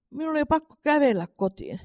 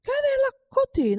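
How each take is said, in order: First: Said in the usual way. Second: "Kävellä kotiin?" asked much higher and slowly, in disbelief; astonished. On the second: A narrator's reading. Mother echoes her son's words, in astonishment. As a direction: echo "Kävellä kotiin?" in high, slow astonishment. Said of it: "suuresti hämmästyneenä ihmetteli".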